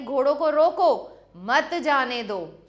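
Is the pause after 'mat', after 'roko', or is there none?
after roko. There is a pause after 'roko'.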